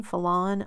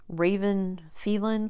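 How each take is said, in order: First: Second guess, Phelan said as fuh-LAH-nuh with stress on LAH; retry Phelan as fuh-LAH-nuh; corrected name. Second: First try, Phelan said as FEE-lan; unsure name. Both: Real, not acted. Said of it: "I don't know how you pronounce her name".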